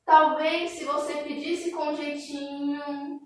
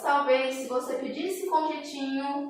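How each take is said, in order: First: "Talvez se você pedisse com jeitinho" said slowly, the voice hanging open at the end; trailing hesitant tone. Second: "Talvez se você pedisse com jeitinho" with the tune left hanging, not closed; trailing hesitant tone. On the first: Teacher showing how an ellipsis sounds: slow, trailing suggestive tune. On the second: Teacher repeating the ellipsis example: trailing, unfinished tune. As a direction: drift off on "jeitinho" as if more should follow. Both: Shown as a demonstration. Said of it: "Olha a entonação da minha voz".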